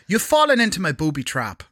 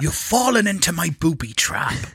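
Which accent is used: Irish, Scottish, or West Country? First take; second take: Irish; West Country. First: It is spoken in an Irish accent. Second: It is spoken in a West Country accent. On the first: "Irish accent" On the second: "West Country"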